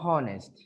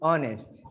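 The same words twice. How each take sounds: First: The word starts with an audible H sound. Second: The word starts with a vowel, no H sound. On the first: The speaker calls it wrong. "Not honest" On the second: The speaker calls it right. "You pronounce the H, but not here. This is honest"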